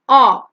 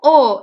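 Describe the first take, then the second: First: The vowel is said with a wide-open mouth. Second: The vowel is said with a rounded, closed mouth. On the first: The speaker calls it right. "You gotta open your mouth wide" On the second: The speaker calls it wrong. "there is no O in English"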